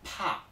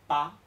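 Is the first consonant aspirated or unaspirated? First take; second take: aspirated; unaspirated. First: The p is released with a strong puff of air. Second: The p is released without a puff of air. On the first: The speaker calls it right. "me quedo ahí un poco con el aire contraído... y de repente lo suelto de golpe" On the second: The speaker calls it wrong. "no decimos pa"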